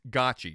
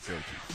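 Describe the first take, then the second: First: The first syllable sounds like 'got'. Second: The first syllable sounds like 'go'. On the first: The speaker calls it right. "it's always uh, uh it's Gotchi" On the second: The speaker calls it wrong. "There's no way anyone called it Gochi"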